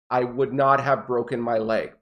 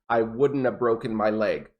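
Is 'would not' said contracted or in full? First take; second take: full; contracted. First: 'Would not' is said as two full words. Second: 'Would not' is contracted to 'wouldn't'.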